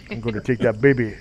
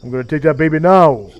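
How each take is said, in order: First: Lightly voiced tough guy, toned down; subdued echo of the thug impression; thug babysitter. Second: Loud mock tough guy, exploding on "now"; thug babysitter. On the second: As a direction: imitate a thug, punch the final word. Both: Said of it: "that character is what I based Anbu on".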